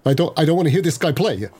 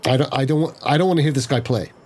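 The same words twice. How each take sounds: First: Hammed-up brittle voice, higher and cracking; overdramatic brittle voice. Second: Slightly overdramatic, a little brittle; a mild attempt at a cracking voice. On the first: Player retrying the line for laughs, higher overdramatic brittle voice. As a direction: overact it, pitched up, voice cracking a little. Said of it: "Let me try it again". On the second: Player voicing a character who won't hear him play, slightly brittle. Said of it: "in a slightly overdramatic, brittle voice that cracks".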